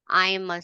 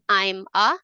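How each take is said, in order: First: The two words are linked into one. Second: The two words are said separately. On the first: The speaker calls it right. "they will become one word" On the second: The speaker calls it wrong. "You don't say"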